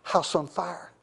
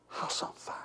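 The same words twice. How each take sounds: First: Said in the usual way. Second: Breathy hushed repeat; whisper. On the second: Shown as a demonstration. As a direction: whisper it low and close.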